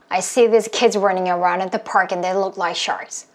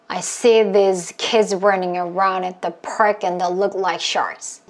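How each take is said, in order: First: It is said fast. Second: It is said at moderate speed.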